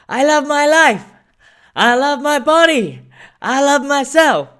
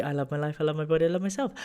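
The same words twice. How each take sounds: First: High, loud hallway chant; kids shouting. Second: Quiet quoted affirmation. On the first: Imitating kids chanting affirmations in the school hallway. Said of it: "kids in the hallway shouting". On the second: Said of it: "she loved the". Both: Retold or imitated.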